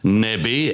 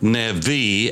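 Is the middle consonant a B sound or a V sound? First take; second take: B; V. First: The middle consonant is a B sound. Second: The middle consonant is a V sound. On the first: "as in boy" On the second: "as in Victor"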